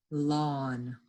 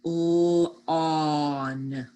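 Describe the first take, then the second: First: Said in the usual way. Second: Lawn stretched into l, aw, n; sounded out. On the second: Shown as a demonstration. Teacher helps pupils spell, lawn sounded out. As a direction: hold each sound of lawn long and level. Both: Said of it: "words we just sounded out".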